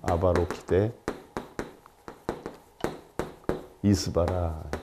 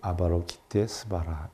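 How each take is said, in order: First: The two parts are said separately, keeping 'i'. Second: The two parts are joined, dropping the 'i'. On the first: "아바로키데 이스바라라고 하기 때문에" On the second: "같이 붙여서는"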